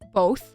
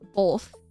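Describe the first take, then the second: First: The word is said without an L sound. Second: The word is said with an L sound. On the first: The speaker calls it right. "instead of both" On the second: The speaker calls it wrong. "I say it with an L"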